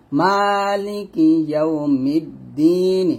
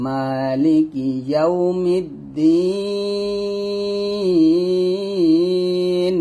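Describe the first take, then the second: First: ইয়াউমিদ্দিন with a short vowel released after the final N; chanted ইয়াউমিদ্দিন, left open at the end; unpaused reading. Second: ইয়াউমিদ্দিন with a very long held final vowel closing on N; sustained recitation, ইয়াউমিদ্দিন closed on a long "deen"; stopping form. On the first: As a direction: recite slowly, ending ইয়াউমিদ্দিন on a short "ni". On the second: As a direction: chant it slowly and stretch the last syllable of ইয়াউমিদ্দিন. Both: Shown as a demonstration. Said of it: "থামলে হবে".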